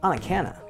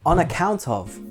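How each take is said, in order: First: The words run together like one word. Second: The three words are said separately and clearly.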